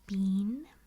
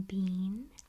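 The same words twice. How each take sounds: Both takes have the same delivery.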